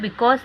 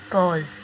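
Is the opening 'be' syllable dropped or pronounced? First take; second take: pronounced; dropped. First: The word is said with its opening 'be' syllable. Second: The word is said without its opening 'be' syllable. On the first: The speaker calls it wrong. "उसे बिकॉज नहीं बोला जाता" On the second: The speaker calls it right. "उसका pronunciation होता है कॉज। बी silent रहता है"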